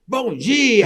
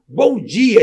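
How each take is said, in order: First: Bright, much higher Bom dia called out; cheerful greeting. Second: Higher, louder Bom dia called out; retold hearty bom dia; cheerful greeting. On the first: Retold or imitated. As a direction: greet the whole lobby proudly. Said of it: "eu falo". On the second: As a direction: proudly greet the waiting staff. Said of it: "Eu falei assim".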